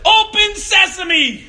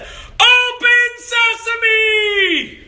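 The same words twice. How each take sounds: First: Higher, slow, drawn-out command at a locked door; childish magic command. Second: High, very slow shouted magic words; shouted louder. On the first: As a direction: proclaim it like a kid at the door. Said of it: "what I did was I said". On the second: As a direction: yell it even louder at the locked door. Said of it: "So then I shouted even louder". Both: Retold or imitated.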